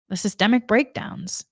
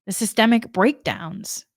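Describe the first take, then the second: No difference in how they are said.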